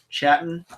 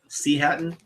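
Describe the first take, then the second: First: The word begins with a normal ch sound. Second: The word begins with the spoken letter name C.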